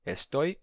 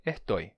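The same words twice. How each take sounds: First: "Estoy" com s sibilante claro. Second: "ertoi" com s aspirado como h. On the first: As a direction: diga "Estoy" com s normal. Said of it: "esse S em final de sílaba". ("Estoy" com s) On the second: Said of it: "pode se tornar ertoi". ("estoy" com h no lugar do s) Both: Shown as a demonstration.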